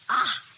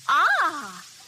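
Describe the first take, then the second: First: It sounds disgusted. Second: It sounds pleased.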